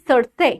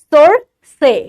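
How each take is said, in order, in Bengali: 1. শব্দটি দৈনন্দিন কথাবার্তায় সাবলীলভাবে বলা হয়। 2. শব্দটি আলাদা করে বলা হয় এবং প্রতিটি ধ্বনি অতিরিক্ত জোর দিয়ে বলা হয়। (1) "বলছি সরষে" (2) "এইরকম ভাবে উচ্চারণটা করছি... এইভাবে উচ্চারণ হয় না"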